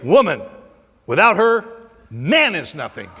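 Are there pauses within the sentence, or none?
pauses. It pauses after "woman" and after "her".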